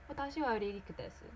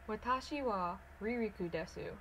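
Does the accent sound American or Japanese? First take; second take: Japanese; American. First: It is spoken with a near-native Japanese accent. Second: It is spoken with a strong American accent. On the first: "The second one is my Japanese accent" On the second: "the first one is how to say it in American Nihongo"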